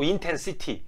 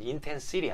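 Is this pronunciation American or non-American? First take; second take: non-American; American. First: It is said with a non-American accent. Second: It is said with an American accent. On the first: "but I'm not American" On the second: "American pronunciation"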